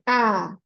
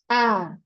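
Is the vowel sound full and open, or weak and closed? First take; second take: full; full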